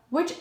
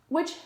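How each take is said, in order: Both takes have the same delivery.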